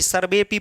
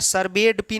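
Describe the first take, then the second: First: No 'd' sound is said before 'pi'. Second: A 'd' sound is said before 'pi'. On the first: The speaker calls it right. "सर्वे पी पढ़ते हैं" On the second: The speaker calls it wrong. "सर्वेड पी नहीं"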